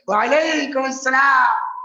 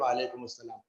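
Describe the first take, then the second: First: The greeting sounds warm and delighted. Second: The greeting sounds cold and displeased. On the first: The speaker is pleased with the visitor. "या हम बहुत इनसे खुश हैं" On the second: The speaker is upset with the visitor. "पता चलेगा कि हम इनसे नाराज हैं"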